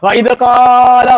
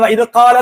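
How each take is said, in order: First: The vowels are stretched out long. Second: The vowels are held at normal length. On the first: The speaker calls it wrong. "അവിടെ നീട്ടേണ്ട ആവശ്യമില്ല" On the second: The speaker calls it right. "വഇദ് ഖാല എന്ന് പറഞ്ഞാൽ മതി"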